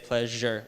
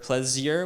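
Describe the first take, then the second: First: The middle has a zh sound. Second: The middle lacks the zh sound. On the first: The speaker calls it right. "like a J" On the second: The speaker calls it wrong. "We don't say pleasure or pleasure"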